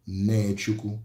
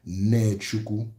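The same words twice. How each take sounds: The two takes are said the same way.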